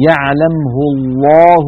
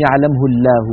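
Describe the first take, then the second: First: الله with a full, dark lam; heavy lam. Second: الله with a thin lam; wrong light lam. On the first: (لام مفخمة) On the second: (لام مرققة خطأ) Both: Shown as a demonstration. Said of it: "ولا يقولون".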